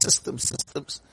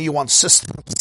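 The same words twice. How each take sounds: First: Whispered, much softer echo of the word; whispered repeat. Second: Said in the usual way. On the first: Acted. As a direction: breathe the words out like a mocking echo. Mocking love of systems.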